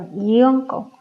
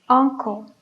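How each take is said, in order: First: The word begins with a Y sound. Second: The word begins with a plain vowel sound. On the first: The speaker calls it wrong. "No dijimos ... uncle" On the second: The speaker calls it right. "estos sonidos sí son de vocal"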